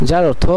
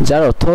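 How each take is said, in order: Both takes have the same delivery.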